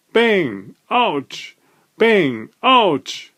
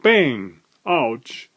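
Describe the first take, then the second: First: Ouch! yelped much higher; the hammer hits the thumb again, squeal it; Ouch! jumps way up in pitch; yelp of pain. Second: Said in the usual way. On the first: A narrator's reading. Repeated hammer blows on thumb.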